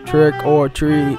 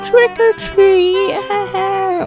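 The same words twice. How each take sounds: First: The voice sounds rude and unfriendly. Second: The voice sounds sweet and friendly. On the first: The speaker calls it wrong. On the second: The speaker calls it right.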